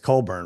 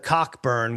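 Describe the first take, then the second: First: The name is said without a 'k' sound. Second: The name is said with a 'k' sound. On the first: The speaker calls it right. "It's Colburn, right?" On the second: The speaker calls it wrong. "you couldn't say it that way"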